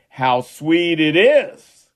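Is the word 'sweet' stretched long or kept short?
short. The word sweet is not emphasized or stretched. "He didn't do it exactly that way"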